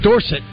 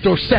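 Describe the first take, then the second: First: The stress is on the first syllable. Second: The stress is on the second syllable. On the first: The speaker calls it wrong. "It's not Dorsett" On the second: The speaker calls it right. "It's Dorsett"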